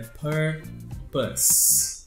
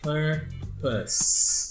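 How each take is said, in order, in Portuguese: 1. A consoante final soa como s. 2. A consoante final soa como s.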